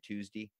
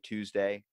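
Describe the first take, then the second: First: The word is said in a Maryland accent. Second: The word is said in a general accent. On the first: "I usually say Tuesday" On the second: "if you say Tuesday"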